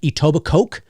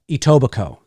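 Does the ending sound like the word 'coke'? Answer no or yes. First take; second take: yes; no. First: The ending is said like the word coke. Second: The ending is not said like coke. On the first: The speaker calls it wrong. "it looks like it's spelled like Etobicoke because it's C O K E at the end" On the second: The speaker calls it right. "but it's actually Etobicoke"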